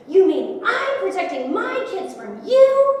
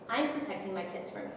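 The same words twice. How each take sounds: First: Loud, high, drawn-out acted outrage; imitating an enraged, incredulous husband; angry shouted retort. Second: Low-key, softened retort; soft, controlled defiance; quiet firm answer. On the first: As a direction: throw the words back in a slow yell. He shouts her words back. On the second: Retold or imitated. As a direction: stand your ground quietly, retelling it. Her firm answer to his shouting.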